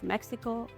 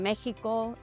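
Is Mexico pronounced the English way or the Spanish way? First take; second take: English; Spanish. First: It is said with an English pronunciation. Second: It is said with a Spanish pronunciation. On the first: The speaker hides her native accent. The speaker calls it wrong. "instead of Mexico" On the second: The speaker owns her native accent. The speaker calls it right. "I started saying Mexico"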